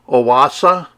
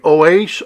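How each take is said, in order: First: The name is pronounced the German way. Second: The name is pronounced the plain English way.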